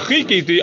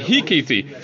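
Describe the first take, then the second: First: The word starts with a harsh throat ch sound. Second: The word starts with a soft h sound. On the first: It means I will wait. The speaker calls it right. "instead of Vechikiti, I'll wait for Hashem" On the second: It means I will strike. The speaker calls it wrong. "he mispronounced Chet as Hayes"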